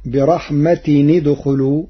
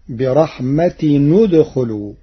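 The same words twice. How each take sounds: First: Said in the usual way. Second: برحمة ندخلوا with the tanween given a u vowel when joined; Warsh reading. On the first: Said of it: "قرأ ورش". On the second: Shown as a demonstration. Teacher demonstrates Warsh's tanween with damma before ندخلوا. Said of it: "بضم التنوين وصلا".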